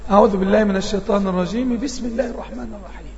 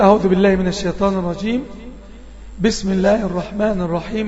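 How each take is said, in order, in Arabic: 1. الجملتان متصلتان بدون وقف. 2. يوجد وقف مع نفس يفصل بين الجملتين. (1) "وصلت الأول بالثاني" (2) "أقرأ وبعدين أقف وأخذ نفس"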